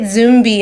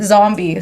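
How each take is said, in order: First: The first vowel is an 'oo' sound. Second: The first vowel is an 'ah' sound. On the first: This is how others often get the name. The speaker calls it wrong. "I always get Zumbi, and I'm like, don't focus on the U" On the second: This is how the name should be said. The speaker calls it right. "then you will know to pronounce it zombie"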